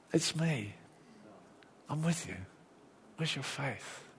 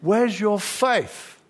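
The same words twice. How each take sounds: First: Soft, close, tender; quietly calm a frightened friend; Jesus gently reassuring his scared disciples, softly; gentle reassurance. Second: Slow, loud, higher rebuke; Jesus rebuking the scared disciples in the boat, slow and loud. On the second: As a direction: call it out slowly across the storm. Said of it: "Jesus says". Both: Retold or imitated.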